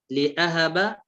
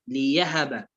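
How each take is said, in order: First: لأهب with a glottal stop; hamza sounded in لأهب. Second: ليهب with a y glide; hamza turned to ya in ليهب. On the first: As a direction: articulate the hamza after li in لأهب. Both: Shown as a demonstration. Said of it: "أبدل الهمزة".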